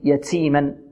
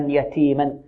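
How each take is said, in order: First: The t carries a hissing s-like sound. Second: The t is clean with no s-like hiss. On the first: The speaker calls it wrong. "البعض يشرب التاء رائحة السين" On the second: The speaker calls it right. "والتاء تخرج من طرف اللسان مع الحنك الأعلى"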